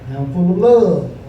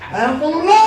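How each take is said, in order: First: It is said with ordinary, calm energy. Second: It is said with much more energy and enthusiasm.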